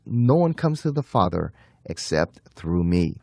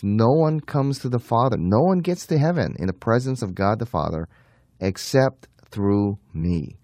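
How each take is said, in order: First: Said in the usual way. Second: "No one" stressed, slowing hard on "except through me"; emphatic declaration. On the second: Shown as a demonstration. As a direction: state it emphatically, each word weighted. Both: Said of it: "emphatically states".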